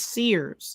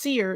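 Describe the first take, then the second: First: The name ends with a final s sound. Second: The name ends without a final s sound. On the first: The speaker calls it right. "it's Sears" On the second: The speaker calls it wrong. "It's not just Sear"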